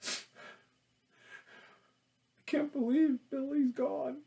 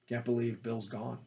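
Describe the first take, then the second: First: It is said with exaggerated, theatrical sadness. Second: It is said low-key and quietly natural.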